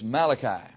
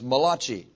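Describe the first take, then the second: First: The word is said unlike kolache. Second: The word is said to sound like kolache. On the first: The speaker calls it right. "It's Malachi" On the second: The speaker calls it wrong. "don't mispronounce the name of this book as Malachi"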